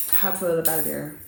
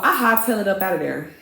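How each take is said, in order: First: Softer, lower repeat; quiet echo. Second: Said in the usual way. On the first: Real, not acted. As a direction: repeat it softly as an afterthought. Softer echo of the same words.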